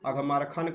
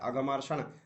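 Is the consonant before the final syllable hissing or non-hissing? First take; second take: non-hissing; hissing. First: The consonant before the last syllable is non-hissing. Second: The consonant before the last syllable is hissing. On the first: The speaker calls it wrong. "अघमरखन कहीं नहीं आपको मिलेगा" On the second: The speaker calls it right. "स ही उच्चारण कीजिएगा"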